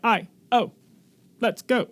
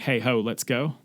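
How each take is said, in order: First: It is said in a British-sounding accent. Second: It is said in a plain American accent.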